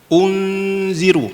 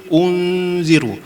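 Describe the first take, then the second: No difference in how they are said.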